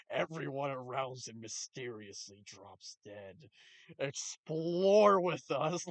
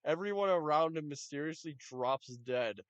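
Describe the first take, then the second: First: Mock spooky narrator voice, dragging explore with us slowly; mock ominous trailer. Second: Said in the usual way. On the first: Shown as a demonstration. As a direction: read the title like a spooky documentary teaser. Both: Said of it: "the fucking titles are just fucking hilarious".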